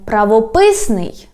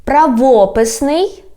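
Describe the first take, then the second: First: "правописний" stressed on ПИС, falling; stress on third syllable. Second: "правописний" stressed on ВО, rising end; stress on second syllable. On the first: Teacher giving the second variant, "правописний" stressed on ПИС. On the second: Teacher giving the first variant, "правописний" stressed on ВО. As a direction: hit ВО in "правописний". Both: Shown as a demonstration. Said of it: "when we change the stress".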